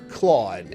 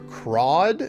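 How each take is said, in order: First: The name is said with an L sound. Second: The name is said with an R sound. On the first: "or Claude" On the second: "it's either Crawd, like C R A W D"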